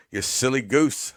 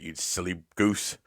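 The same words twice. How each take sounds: First: Louder teasing. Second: Said in the usual way. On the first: Acted. Teasing a chatter, repeated.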